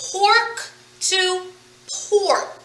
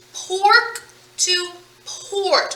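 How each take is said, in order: First: Said in the usual way. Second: "Pork to port" said very slowly with the end sounds drawn out; slow demo read. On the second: Shown as a demonstration. Teacher stretching pork to port so students hear the ending. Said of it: "What change am I making?".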